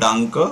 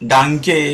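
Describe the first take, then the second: First: The word ends in a short 'a' vowel. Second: The word ends in a clear 'e' vowel. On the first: The speaker calls it right. "ई म्हणजे" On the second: The speaker calls it wrong. "डांके, बिटे, स्ट्रासे असं नाही म्हणायचं आहे"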